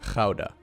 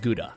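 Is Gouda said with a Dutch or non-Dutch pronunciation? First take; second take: Dutch; non-Dutch. First: The word is said with a Dutch pronunciation. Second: The word is said with a non-Dutch pronunciation. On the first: The speaker calls it right. "It's a Dutch city. It's pronounced Gouda" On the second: The speaker calls it wrong. "Not not as Gouda"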